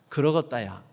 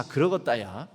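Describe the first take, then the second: First: Jeolla "그러겄다야" said low with a falling end; Jeolla dialect. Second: Jeolla "그러겄다야" said low with a rising end; Jeolla dialect. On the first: Preacher modelling God's reply for repetition, Jeolla falling. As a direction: let Jeolla "그러겄다야" drop at the end, settled. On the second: Preacher modelling God's agreement for repetition, Jeolla rising. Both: Shown as a demonstration. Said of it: "따라서 한번 해보시겠습니다".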